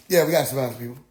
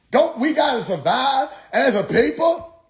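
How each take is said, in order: First: Low, level concession; understated agreement. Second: High, swooping mock-preacher question; imitated preacher challenge. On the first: Retold or imitated. Questioner conceding the preacher's point, low and matter-of-fact. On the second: Preacher rallying a doubter for his people, high and insistent.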